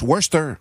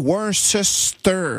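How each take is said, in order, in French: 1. Il se prononce avec moins de syllabes. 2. Chaque syllabe écrite se prononce. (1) "mais ça se prononce Worcester" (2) "ça s'écrit Worcester"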